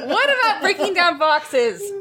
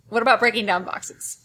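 First: It is shouted angrily. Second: It is said calmly.

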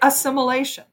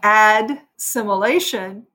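First: No d sound comes before the s. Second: A d sound comes before the s. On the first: "you say assimilation. Because it was easier to do another S than to do a D" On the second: "Instead of saying assimilation"

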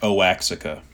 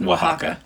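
First: The word is said as it is spelled. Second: The word is said as 'wa-HA-ka'. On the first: The speaker calls it wrong. "it's the one that looks like Oaxaca" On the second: The speaker calls it right. "It's pronounced Oaxaca"

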